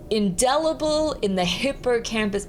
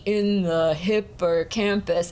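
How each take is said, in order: First: Natural spoken phrase, DEL stressed and "in the" tossed off; everyday rhythm, "in the" unstressed before "hippocampus"; quick unimportant "in the". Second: Slow, plodding "in the hippocampus" with a heavy IN; evenly drawn-out chant, weight on "in"; stodgy. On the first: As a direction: say "indelible in the hippocampus" lightly through "in the". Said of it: "In the is really quick and kind of unimportant". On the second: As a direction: give "in the" a full beat, too important. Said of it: "it made it feel sort of stodgy". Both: Shown as a demonstration.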